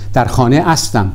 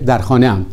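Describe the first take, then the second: First: The verb ending is the full form astam. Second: The verb ending is the short form am. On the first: This is how it is said in some dialects, especially in Afghanistan. "شکل کامل به کار می روند. می گویند در خانه استم" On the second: This is the usual shortened form. "به جای در خانه ام"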